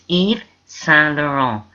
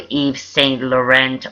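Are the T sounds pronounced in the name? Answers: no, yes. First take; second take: no; yes. First: The T sounds in the name are silent. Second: The T sounds in the name are pronounced. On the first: The speaker calls it right. "It's Yves Saint Laurent. You don't pronounce the T's" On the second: The speaker calls it wrong. "or Yves Saint Laurent"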